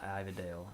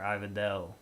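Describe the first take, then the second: First: The ending sounds like the name Dale. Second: The ending does not sound like the name Dale. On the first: The speaker calls it wrong. "not Dale as in Dale Earnhardt" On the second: The speaker calls it right. "You are Ivadale"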